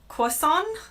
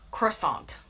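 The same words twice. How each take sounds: First: It is said in a British, French-sounding way. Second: It is said in an American way, stressing 'aunt'. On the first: "in the U K, it sounds much more French" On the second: "I say croissant. Emphasis on the aunt"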